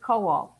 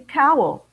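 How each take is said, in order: First: The name is pronounced the original Polish way. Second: The name is pronounced the English way. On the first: It is the original family pronunciation. "Jack's last name is Kowal" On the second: The family avoided sounding Polish. "They changed it to Cowell"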